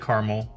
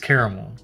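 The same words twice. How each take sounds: First: The word is said with two syllables. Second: The word is said with three syllables. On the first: The speaker calls it wrong. "I know some people say caramel" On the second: The speaker calls it right. "has a second A in it? That matters. It's caramel"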